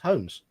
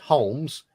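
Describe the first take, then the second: First: The L sound is silent in the word. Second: The L sound is pronounced in the word. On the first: The speaker calls it right. "for us the L is silent" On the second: The speaker calls it wrong. "It's not pronounced Holmes"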